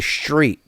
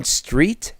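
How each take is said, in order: First: Street with a slushy SH, SHTREET; mimicked sh pronunciation. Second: Street with a clean S, questioning; correct pronunciation. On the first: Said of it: "The fuck is a street?". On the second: Shown as a demonstration. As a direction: say street with crisp S-T-R, no SH. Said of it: "That's how it's pronounced, street".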